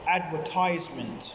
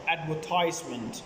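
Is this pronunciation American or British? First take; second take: American; American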